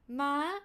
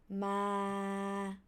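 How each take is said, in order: First: The pitch holds mid, then jumps up high. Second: The pitch stays level at a mid height. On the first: "starts from mid pitch, straight, and then suddenly increase to high" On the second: "it with your mid pitch go straight"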